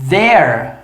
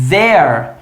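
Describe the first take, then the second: Both takes have the same delivery.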